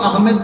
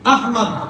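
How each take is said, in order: First: The second vowel is an 'e' sound. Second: The second vowel is an 'o' sound. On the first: The speaker calls it wrong. "কেউ আহমেদ বলে" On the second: The speaker calls it right. "আহমদ শুদ্ধ"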